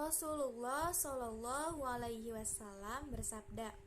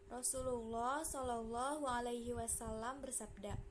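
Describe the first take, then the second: Both takes have the same delivery.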